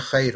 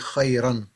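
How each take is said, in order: First: The word is cut short without its ending. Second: The word is said with its full ending. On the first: This is the casual spoken form. "We just say khair" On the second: This is the full proper form. "but really khayran"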